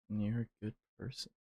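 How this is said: It is said in a flirty, seductive voice. The speaker calls it wrong. "in a flirty voice"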